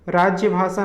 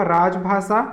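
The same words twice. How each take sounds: First: राज्य भाषा as "rajjya bhasa"; wrong राज्य भाषा. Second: राजभाषा as "raj-bhasa"; no y glide in राजभाषा; correct राजभाषा. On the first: Teacher rejecting the error, राज्य भाषा with "jya". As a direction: add a y glide after raj in राज्य भाषा. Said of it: "नहीं होता". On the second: Teacher answering own question, राजभाषा as "raj-bhasa". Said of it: "शुद्ध रूप क्या होगा". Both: Shown as a demonstration.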